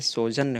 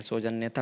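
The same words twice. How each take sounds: First: सौजन्य ending on "janya", no "ta"; correct form. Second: सौजन्यता with an extra "ta" on the end; wrong form. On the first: Teacher correcting the word, सौजन्य without a final "ta". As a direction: stop सौजन्य after the doubled n sound. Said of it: "सौजन्य होता है". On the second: Teacher dismissing the wrong word, सौजन्यता ending in "ta". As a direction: softly add "ta" to make सौजन्यता. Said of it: "सौजन्यता कुछ नहीं होता है". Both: Shown as a demonstration.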